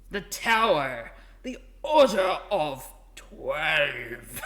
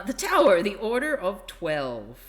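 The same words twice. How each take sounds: First: Loud, very slow, grandiose title reveal; hammed-up epic announcement; impressive announcer. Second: Said in the usual way. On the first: Shown as a demonstration. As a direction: boom it out, stretching every word. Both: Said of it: "'Cause that doesn't sound very impressive".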